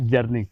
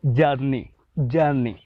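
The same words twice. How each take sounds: First: Said in the usual way. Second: जर्नी said jaani, open vowel and no R; British journey. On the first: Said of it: "हम लोग pronounce करते हैं जर्नी". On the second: Shown as a demonstration. Teacher showing students how the English say जर्नी. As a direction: say जर्नी long and open, dropping the R. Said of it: "अंग्रेज़ लोग जो बोलते हैं".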